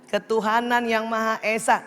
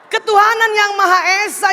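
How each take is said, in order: First: It is said gently, with a smile. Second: It is said angrily, in a shrill voice.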